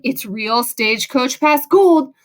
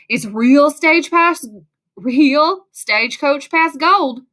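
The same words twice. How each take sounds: First: Said in the usual way. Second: Put-on slow, drawn-out cheesy Southern accent. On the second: A narrator's reading. Gold mine man telling kids the gold is real, cheesy Southern accent. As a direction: ham up a slow Southern twang. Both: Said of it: "with a cheesy Southern accent".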